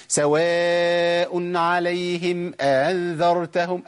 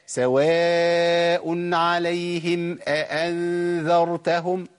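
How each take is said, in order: First: Slow chanted recitation gliding over the second hamza of أأنذرتهم; wrongly eased hamza. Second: Slow chanted recitation with two separate catches opening أأنذرتهم; both hamzas sounded. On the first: Teacher showing the mistake in recitation, tas-hil in أأنذرتهم. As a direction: chant it, blurring أأنذرتهم into one long "aa". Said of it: "أنا كده عملت تسهيل". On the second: Teacher showing the correct recitation, two full hamzas in أأنذرتهم. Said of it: "لابد من تحقيق الهمزتين". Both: Shown as a demonstration.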